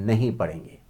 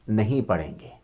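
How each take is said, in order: The two takes are said the same way.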